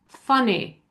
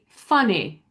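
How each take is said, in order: The two takes are said the same way.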